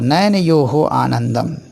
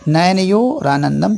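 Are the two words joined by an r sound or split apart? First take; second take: split; joined. First: The words are split, ending in a breathy h. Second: The words are joined by an r sound. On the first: "र खत्म हो जाएगा, उसका विसर्ग बन जाएगा" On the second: "ध्यान से पढ़ना सीखिए"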